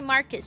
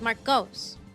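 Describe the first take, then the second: First: The final syllable has a reduced 'uh' vowel. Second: The final syllable has a full 'o' vowel. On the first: The speaker calls it wrong. "don't say Marcus" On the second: The speaker calls it right. "It's Marcos"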